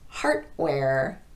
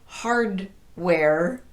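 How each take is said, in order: First: The D is voiceless and sounds like T. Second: The D and W sound like separate words. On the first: "students will devoice the D" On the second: "the two words still sound separate"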